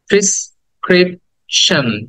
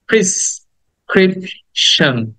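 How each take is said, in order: First: The first syllable has the vowel of 'pin'. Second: The first syllable has the vowel of 'pin'.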